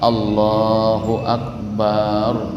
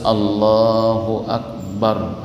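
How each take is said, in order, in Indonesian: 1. Vokal setelah huruf b dibaca panjang. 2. Vokal setelah huruf b dibaca pendek. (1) "tidak boleh" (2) "harus Allahu Akbar"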